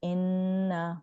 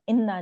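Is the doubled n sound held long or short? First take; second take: long; short. First: The n sound is held for two counts. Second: The n sound is short, not held. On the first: The speaker calls it right. "टू count से स्ट्रेच करना होता है" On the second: The speaker calls it wrong. "इन्ना नहीं पढ़ेंगे"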